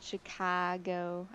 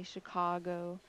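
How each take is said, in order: First: "Chicago" with an ah in the middle; Michigan vowel. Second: "Chicago" with an aw in the middle; aw vowel. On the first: Pointing out her own Michigan pronunciation, ah vowel. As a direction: say "Chicago" as shi-KAH-go, vowel forward. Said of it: "Notice I said Chicago". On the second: Showing what she didn't say, aw vowel. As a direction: say "Chicago" as shi-CAW-go. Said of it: "I didn't say Chicago". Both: Shown as a demonstration.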